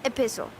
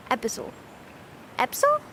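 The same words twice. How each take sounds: First: Epistle as i-PISS-ul, the I sounded. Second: Epistle squeezed to EP-sul, questioning; trying out epistle. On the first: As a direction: put the I back in Epistle, stress on PISS. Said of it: "No, there's an I in there". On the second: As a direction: test epistle with stress up front, EP-sul. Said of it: "or do you say it more like". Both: Shown as a demonstration.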